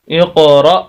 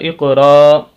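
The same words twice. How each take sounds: First: The word ends with a sharp glottal catch. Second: The word ends on a smooth, long vowel. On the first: The speaker calls it right. "हमजा पढ़ेंगे तो फिर यहाँ पर झटका देना होगा" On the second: The speaker calls it wrong. "अगर हम इसको अलिफ पढ़े रा ज़बर अलिफ रा"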